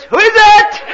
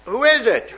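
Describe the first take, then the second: First: Piercing high parrot screech. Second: Lightly voiced old lady, higher. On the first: Acted. Parrot still questioning the plumber, piercing loud screech. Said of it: "Parrot says". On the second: Old lady finding a man at her door, lightly raised question. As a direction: ask it as a puzzled old lady. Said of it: "she said".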